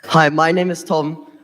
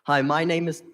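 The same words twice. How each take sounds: First: Louder and slower, with a laugh; louder restart. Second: Said in the usual way. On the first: Real, not acted. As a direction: start over louder and slower over the echo. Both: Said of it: "hard to talk with the echo".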